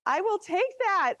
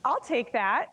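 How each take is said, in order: First: Higher, thrilled repeat; excited. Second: Said in the usual way. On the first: Real, not acted. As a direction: say it again, delighted. Repeats reply from space.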